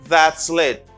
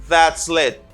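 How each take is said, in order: The two takes are said the same way.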